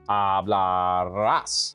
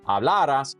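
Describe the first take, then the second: First: The stress is on the final syllable. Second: The stress is on the second-to-last syllable. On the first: It is the future tense form. "that final syllable is the one that's stressed" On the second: It is the past tense subjunctive form. "you keep that stress in that same spot"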